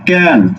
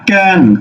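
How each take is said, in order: First: The vowel is open, like in 'cat'. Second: The vowel is open, like in 'cat'.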